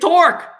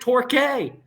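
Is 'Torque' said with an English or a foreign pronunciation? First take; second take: English; foreign. First: The name is given a plain English pronunciation. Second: The name is given a foreign, non-English pronunciation. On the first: The speaker calls it right. "It's Torque. You're speaking English" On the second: The speaker calls it wrong. "they kept pronouncing it Torque"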